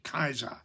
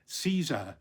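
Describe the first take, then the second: First: The word begins with a hard K sound. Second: The word begins with a soft S sound. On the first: This is the ancient Roman pronunciation. "in ancient Rome, that would have been Julius Caesar with a hard C" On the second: This is the modern pronunciation. "we say with a soft C"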